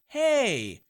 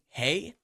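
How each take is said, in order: First: The greeting is drawn out, sounding more natural. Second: The greeting is short and flat, sounding robotic. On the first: The speaker calls it right. "when you say "Hey" with two Y's" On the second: The speaker calls it wrong. "instead of it saying "Hey,""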